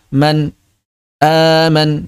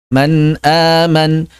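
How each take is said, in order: First: There is a pause between the two words. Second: The two words run on without a pause. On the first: The speaker calls it wrong. "atau malah memberikan jeda" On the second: The speaker calls it right. "tidak ditambah, tidak dikurangi"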